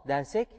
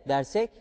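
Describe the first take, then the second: The two takes are said the same way.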